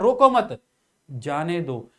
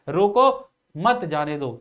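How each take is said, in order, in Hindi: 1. 'mat' के ठीक बाद विराम है। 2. 'roko' के ठीक बाद विराम है। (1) "तो अर्थ में परिवर्तन हो गया" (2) "अल्प विराम यहां पर रोको के बाद प्रयोग किया तो अर्थ कुछ और हो गया"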